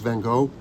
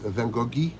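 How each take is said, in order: First: The name is pronounced the American way. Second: The name is pronounced the French way. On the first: "In America, it's Van Gogh" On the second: "in France, it's Van Goghi"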